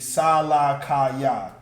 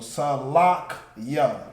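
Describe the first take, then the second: First: Each of the four syllables is said separately. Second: The middle syllables join, leaving three separate parts. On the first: "without the connectors, it would just be Sa La Ka Ya" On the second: "The La and the Ka becomes one word"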